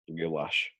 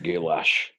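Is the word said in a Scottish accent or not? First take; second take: not Scottish; Scottish. First: It is said in the speaker's usual accent. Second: It is said in a Scottish accent.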